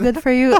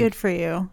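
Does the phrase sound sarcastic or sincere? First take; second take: sincere; sarcastic. First: The phrase is said in a sincere tone. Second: The phrase is said in a sarcastic tone. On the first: The praise is meant honestly. The speaker calls it right. "but genuinely good for you" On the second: The praise seems mocking rather than meant. The speaker calls it wrong. "That sounded so sarcastic"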